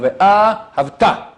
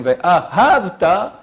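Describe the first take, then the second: First: Ve'ahavta slow, stress on first and third syllables; Ve'ahavta, correct stress. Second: Ve'ahavta slow, stress on the second syllable; Ve'ahavta, wrong stress. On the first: Rabbi demonstrates correct reading to class, slow. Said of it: "On met l'accent sur la première et la troisième". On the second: Rabbi demonstrates the mistaken reading, slow. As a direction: say Ve'ahavta slowly, accent on the second. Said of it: "il met l'accent sur la deuxième". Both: Shown as a demonstration.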